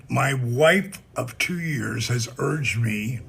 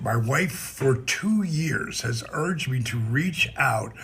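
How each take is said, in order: First: Said in the usual way. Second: For read slowly and firmly; corrected reading, for stressed. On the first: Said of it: "not up to two years". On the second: Shown as a demonstration. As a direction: lean on the word for. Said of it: "for two, not up to two years".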